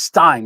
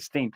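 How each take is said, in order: First: The vowel sounds like 'eye'. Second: The vowel sounds like 'ee'. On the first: The speaker calls it right. "It's Stein. Don't say Steen because it's like beer Stein" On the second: The speaker calls it wrong. "I was going to say Steen"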